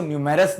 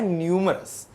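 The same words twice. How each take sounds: First: न्यूमेरस with a full e sound in the middle; wrong pronunciation. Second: न्यूमरस with the middle vowel reduced; correct pronunciation. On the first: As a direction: say न्यूमेरस as the mistake to avoid. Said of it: "आप इसको न्यूमेरस नहीं पढ़ना". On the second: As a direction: say न्यूमरस, short unstressed middle. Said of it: "इसको पढ़ना है न्यूमरस". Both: Shown as a demonstration.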